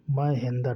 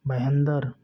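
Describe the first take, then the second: First: "महेंद्र" as maa-hen-dar, opening vowel stretched; "महेंद्र" with a long first a; drawn-out vowels. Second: Said in the usual way. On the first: Shown as a demonstration. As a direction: draw out "महेंद्र" syllable by syllable. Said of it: "देखिए खींचकर बोला जा रहा है". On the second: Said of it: "विशेष खींचकर बोला जाए".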